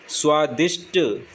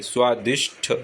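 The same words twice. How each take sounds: First: स्वादिष्ट ending in plain hard "sṭ"; slow स्वादिष्ट, no puff on final ṭ; wrong unaspirated ending. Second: स्वादिष्ट ending in breathy "shṭh"; aspirated final ṭh. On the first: Teacher showing the error, स्वादिष्ट with unaspirated "ṭ". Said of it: "गलत है". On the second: Teacher correcting the word, स्वादिष्ट ending in "ṭh". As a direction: puff the last ṭ of स्वादिष्ट into ṭh. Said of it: "ठ आता है पीछे". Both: Shown as a demonstration.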